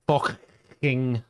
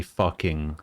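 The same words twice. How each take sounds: First: "fucking" in a higher Scouse accent with a crackly, throaty "ck". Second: Said in the usual way. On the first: Shown as a demonstration. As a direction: crackle the middle of "fucking" like a Liverpudlian. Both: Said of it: "give it that crackling".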